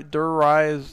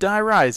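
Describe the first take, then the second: First: The first part is said like "dur". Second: The first part is said like "die". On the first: The speaker calls it wrong. "I always say it wrong" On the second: The speaker calls it right. "But Die Rise"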